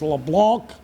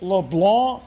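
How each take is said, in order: First: The final C is pronounced as a K sound. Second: The final C is silent, ending on the N. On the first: This is how people elsewhere get it wrong. The speaker calls it wrong. "Please quit having people around the country think this kid's name is LeBlanc" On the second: This is how it is said in South Louisiana. The speaker calls it right. "silent C"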